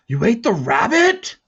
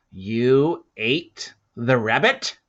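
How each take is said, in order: First: High and loud, strained with anger; taut voice. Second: Slow, loud, doubting question; suspicious question. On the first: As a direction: snap the repeat tight and sharp. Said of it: "his voice taut". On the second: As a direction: drag it out in disbelief. Volt asks the boy. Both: Acted.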